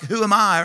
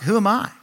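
First: It sounds proud and confident. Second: It sounds doubtful and self-deprecating.

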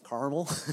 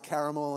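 First: The word is said the American way. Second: The word is said the non-American way.

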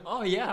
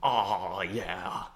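First: It is said with calmer, toned-down enthusiasm. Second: It is said with exaggerated, over-the-top enthusiasm. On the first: The speaker calls it right. "Scale it back" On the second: The speaker calls it wrong. "Too much?"

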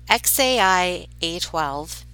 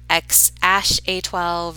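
First: The middle part is spelled out as letters A-I. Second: The middle part is said as the word 'ash'. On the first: "then AI, like how you said the letter A and I" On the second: "the AE combo is pronounced like ash"

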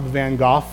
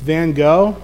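First: The name is pronounced a posh, snobbish way. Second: The name is pronounced the plain, everyday way. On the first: "or if you're a snob" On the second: "It's Van Gogh"

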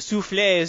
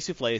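First: It is said with a put-on French accent. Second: It is said with a plain American accent. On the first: The speaker is showing off a foreign pronunciation. The speaker calls it wrong. "they start putting on an accent" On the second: The speaker is just saying the word normally. The speaker calls it right. "just say soufflé"

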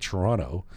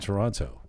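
First: The second t sound is dropped. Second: The second t sound is clearly pronounced. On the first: "you can tell somebody who lives here because they say Toronto" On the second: "I'm from Toronto with the T"

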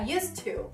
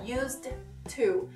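First: The d sound is dropped entirely. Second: The d sound is clearly pronounced. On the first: The speaker calls it right. "você não faz o som do D" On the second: The speaker calls it wrong. "Não vai ficar used to"

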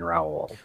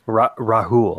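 First: No H sound is heard between the vowels. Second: An H sound is heard between the vowels. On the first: This is an Americanized way of saying it. "Americanized it would have been Raul" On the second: This is how the name's owners say it. "They actually pronounce the H in it"

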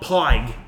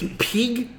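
First: The word is said unlike the word pig. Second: The word is said like the word pig. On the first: The speaker calls it wrong. "not Pyg" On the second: The speaker calls it right. "it's Pyg"

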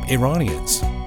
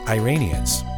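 First: It is said in the native-style pronunciation. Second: It is said in an Americanized pronunciation. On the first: The people are seen as ordinary people. The speaker calls it right. "you might say they look like Iranians" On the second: The people are seen as foreign extremists. The speaker calls it wrong. "not Iranians"

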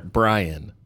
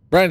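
First: The name is clearly enunciated. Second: The name is mumbled and indistinct. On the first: The speaker calls it right. "Can I enunciate that?" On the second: The speaker calls it wrong. "you mumbled it"

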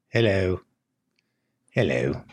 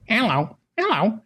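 First: It sounds like an eerie, creepy parrot. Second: It sounds like a normal chirpy parrot.

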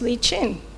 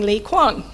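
First: The second name starts with a ch sound. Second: The second name starts with a kw sound. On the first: The speaker calls it right. "his name's pronounced Lee Chin" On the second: The speaker calls it wrong. "I've been calling Lee Kwan"

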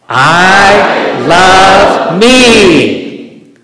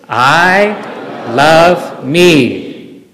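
First: It is said louder than before. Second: It is said quietly and weakly.

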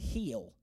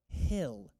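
First: The vowel is long, like in heat. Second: The vowel is short, like in hit. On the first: The speaker calls it wrong. "Some of you say heel. I want you to know that is not right" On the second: The speaker calls it right. "The word is pronounced hill"

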